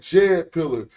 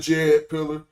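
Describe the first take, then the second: First: No D sound is heard before the J. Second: A D sound is heard before the J. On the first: The speaker calls it right. "You really say Jed pillar" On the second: The speaker calls it wrong. "You don't say the Jed pillar"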